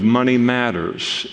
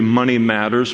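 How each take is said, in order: First: The stress falls on the word matters. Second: The stress falls on the word money. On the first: It says that money is important. "with maybe the inflection of money matters also, because money does matter" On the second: It names the topic of financial affairs. "so it's going to be Money Matters"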